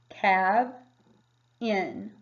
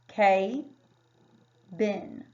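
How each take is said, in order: First: The first vowel is a short A sound. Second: The first vowel is a long A sound. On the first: The speaker calls it right. "this would make the short A sound in cab" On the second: The speaker calls it wrong. "That would make it a long vowel"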